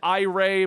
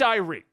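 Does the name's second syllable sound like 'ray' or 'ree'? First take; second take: ray; ree. First: The second syllable sounds like 'ray'. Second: The second syllable sounds like 'ree'. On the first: This is how the speaker habitually says it. The speaker calls it wrong. "I've always said I-Ray" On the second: This is how others say it should be. The speaker calls it right. "but it's Irie"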